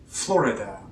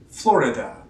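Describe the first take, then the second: First: The middle I sound is clearly heard. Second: The middle I sound is clearly heard.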